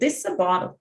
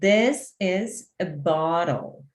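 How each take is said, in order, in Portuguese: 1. A frase é dita rápido, em cerca de um segundo. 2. A frase é dita devagar, em cerca de quatro segundos. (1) "uma velocidade de um segundo" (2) "Essa é a velocidade ideal. Quatro segundos"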